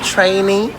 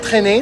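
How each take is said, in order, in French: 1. Il se prononce comme le mot anglais trainee. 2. Il se lit comme le verbe français traîner.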